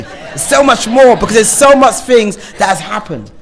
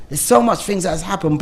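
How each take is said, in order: First: Loud and high, near shouting; raised, urgent voice; passionate outburst. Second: Said in the usual way. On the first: Real, not acted. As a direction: let it burst out of you. Passionate urge to say more.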